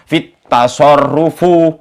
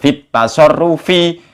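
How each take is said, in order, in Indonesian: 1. Kata terakhir berakhir dengan vokal 'u'. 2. Kata terakhir berakhir dengan vokal 'i'. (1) "baca kitabnya saja sudah nggak iso fit tasarrufu katanya" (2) "Padahal yang benar fit tasarrufi"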